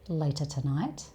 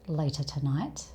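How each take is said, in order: The two takes are said the same way.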